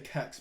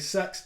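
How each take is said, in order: First: It is one word starting with a k sound. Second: It is one word starting with an s sound. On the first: The speaker calls it right. "I say Kex because that is the best way to say it" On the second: The speaker calls it wrong. "I don't say sex"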